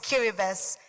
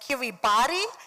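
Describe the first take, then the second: First: The 'ti' is said with an S sound. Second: The 'ti' is said with a T sound. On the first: The speaker calls it right. "The T I we pronounce it as is" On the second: The speaker calls it wrong. "it's not Kiribati"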